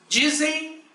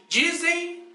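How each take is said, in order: No difference in how they are said.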